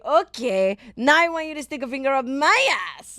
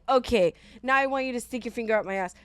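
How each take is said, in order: First: It is said in a Borat impression voice. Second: It is said in her normal voice.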